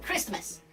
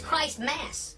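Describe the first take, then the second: First: It is said as one blended, reduced word. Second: It is said as two separate full words. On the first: This is how people usually say the holiday's name. "And so we say it different" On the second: This shows what the name really comes from. "If you really want to call it what it is"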